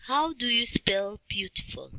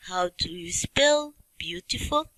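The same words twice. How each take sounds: First: Whispered question to the class; hushed teacher prompt. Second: Said in the usual way. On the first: Shown as a demonstration. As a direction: breathe the question without voice. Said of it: "repeated question, whispered". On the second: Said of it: "repeated question, plain".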